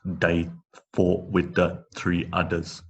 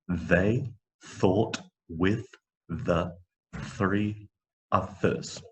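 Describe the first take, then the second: First: The th sounds are replaced by t or d. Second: The th sounds use the tongue between teeth. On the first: The speaker calls it wrong. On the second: The speaker calls it right.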